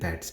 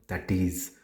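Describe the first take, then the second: First: It is said as one contracted word. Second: It is said as two full words. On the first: The speaker calls it right. "it is it's and that's" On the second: The speaker calls it wrong. "it is not that is"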